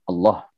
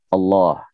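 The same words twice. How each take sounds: First: The second vowel is cut short. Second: The second vowel is held long. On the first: The speaker calls it wrong. "tidak boleh dibaca pendek. Allah tidak boleh" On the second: The speaker calls it right. "pakai hak Allah"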